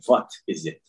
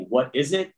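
First: The word begins with a V-like sound. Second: The word begins with a rounded W sound. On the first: "They say" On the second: "when they say"

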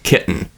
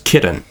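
First: The middle T is a glottal stop. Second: The middle T is a quick flap. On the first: "it's turned into a glottal stop" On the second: "turn it into more of a flap"

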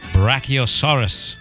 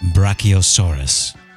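First: It is said in a plain voice. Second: It is said in a smoky voice.

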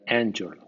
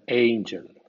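First: The first vowel is a short a sound. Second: The first vowel sounds like the letter A. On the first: This is how the spelling rule predicts it. "en principio debería sonar angel" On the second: This is how the word is actually said. "suena angel con el nombre de la letra A"

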